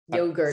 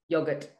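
First: It is said in an American accent. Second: It is said in a non-American accent.

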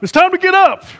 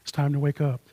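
First: It is said in a stern, forceful tone. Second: It is said in a gentle, soft tone.

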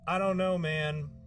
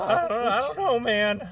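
First: It is said in a normal voice. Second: It is said in a cracking, teenage voice.

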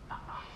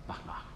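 Both takes have the same delivery.

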